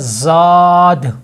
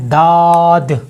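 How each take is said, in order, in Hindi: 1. शब्द z जैसी आवाज़ से शुरू होता है। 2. शब्द सादी d की आवाज़ से शुरू होता है। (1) "जाद जा के साथ" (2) "दाल के साथ दाद"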